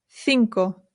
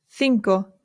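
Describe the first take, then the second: The two takes are said the same way.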